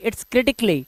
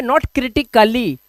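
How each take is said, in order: First: Critically as "KRI-tik-lee", no "ka"; correct pronunciation. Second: Critically as "kri-ti-ka-lee", with a full "ka"; wrong pronunciation. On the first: Teacher models critically for students as "kritik-lee", correctly pronounced. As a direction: squeeze critically into three syllables, "tik-lee". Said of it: "इसको बोलने की आदत डालें". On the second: Teacher warns class off saying critically with "kali", mispronounced. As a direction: sound out an extra "ka-lee" in critically. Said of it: "क्रिटिकली या फिजिकली नहीं बोलेंगे". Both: Shown as a demonstration.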